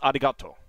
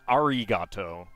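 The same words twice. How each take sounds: First: The consonant falls between an English r and l. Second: The consonant sounds like an English r. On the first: The speaker calls it right. "your mouth is uh, basically forming a, a kind of midpoint between English R and uh, L" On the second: The speaker calls it wrong. "it's not arigato"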